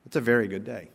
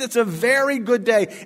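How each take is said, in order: First: Said in the usual way. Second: Much higher and louder triumphant cry; preacher shouting the refrain to the church; exultant refrain. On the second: Acted. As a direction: proclaim it like good news.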